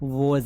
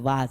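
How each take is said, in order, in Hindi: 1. स्वर एक गोल हुआ 'aw' है। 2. स्वर एक खुला, बिना गोल हुआ 'ah' है। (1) "मुंह को खड़ा करना है" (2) "वाज नहीं है"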